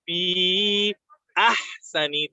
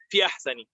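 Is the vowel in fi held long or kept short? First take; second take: long; short. First: The vowel in fi is held long. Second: The vowel in fi is kept short. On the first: The speaker calls it right. "because that hamza is coming, we want to emphasize it" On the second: The speaker calls it wrong. "So we don't say"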